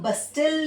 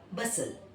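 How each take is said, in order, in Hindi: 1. t की आवाज़ बोली जाती है। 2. t की आवाज़ साइलेंट है। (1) "इसको बस्टल नहीं पढ़ेंगे"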